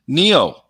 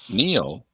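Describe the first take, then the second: First: Higher, firmer repeat of the name; insistent repeat. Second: Softer questioning echo of a name; puzzled echo. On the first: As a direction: say the name again with more push. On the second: Acted puzzled reply in retold exchange. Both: Retold or imitated.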